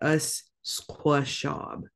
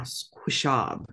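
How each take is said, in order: First: Squishab sounded out slowly, schwa kept; sounding out words. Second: Squishab, schwa dropped: skwish-ab; squishab without schwa. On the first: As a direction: say squishab slowly, skwi-shuh-ab. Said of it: "if you need it to sound out the word". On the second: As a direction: say squishab in two quick beats. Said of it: "I always drop out that schwa". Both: Shown as a demonstration.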